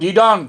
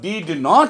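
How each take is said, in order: First: The words merge into one contracted word. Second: Both words are said fully and separately. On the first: The speaker calls it right. "বলবো ডিডন্ট" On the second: The speaker calls it wrong. "কখনো ডিড নট বলবো না"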